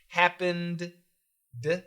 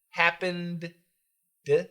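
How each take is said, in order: No difference in how they are said.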